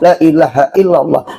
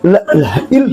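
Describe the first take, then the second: First: It is recited at a moderate, even pace. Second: It is recited fast and clipped short. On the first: The speaker calls it right. "sedang nang bagus" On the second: The speaker calls it wrong. "kecepatan kada bagus"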